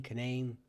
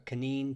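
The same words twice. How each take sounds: First: "Canaan" said as kuh-NAYN; variant pronunciation. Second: "Canaan" said as kuh-NEEN; variant pronunciation. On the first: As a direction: say "Canaan" with a long ay in the second syllable. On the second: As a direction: say "Canaan" with a long ee in the second syllable. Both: Shown as a demonstration. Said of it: "Canaan comes from many variations".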